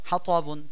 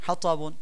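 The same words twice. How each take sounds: The two takes are said the same way.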